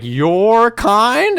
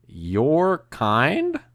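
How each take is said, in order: First: Loud, high, incredulous outburst; raised-voice, offended echo; retold outraged question. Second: Drawn-out question with a rising end; puzzled, offended echo of someone's words; retold incredulous question. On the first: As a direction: blurt it out high and affronted. Same question retold, louder take. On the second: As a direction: stretch it out in disbelief, rising. Retold question to David, first take.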